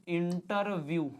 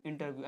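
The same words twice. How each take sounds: First: इंटरव्यू stretched out syllable by syllable; very slow, drawn-out इंटरव्यू; slow dictation. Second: Said in the usual way. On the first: Shown as a demonstration. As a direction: sound out इंटरव्यू slowly as you write. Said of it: "Hindi में लिखना तो ऐसा भी लिख सकते हो". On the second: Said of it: "ऐसा भी लिख सकते हैं".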